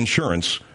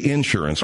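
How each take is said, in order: First: The word is said in a standard way. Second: The word is said the Oklahoma way. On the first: "instead of saying insurance" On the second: "that's how they say it"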